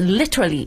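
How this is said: The word is said in a British accent. "英国人的发音就是literally"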